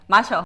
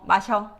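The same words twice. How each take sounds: First: It is said with Gyeongsang dialect intonation. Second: It is said with standard Seoul intonation. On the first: "Gyeongsangdo will be like" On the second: "What's Seoul dialect?"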